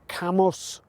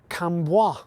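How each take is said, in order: First: The name is said with a plain English pronunciation. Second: The name is said with a French-style pronunciation. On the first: The speaker calls it right. "It is pronounced Camus" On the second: The speaker calls it wrong. "using the French style pronunciation. However, this is wrong"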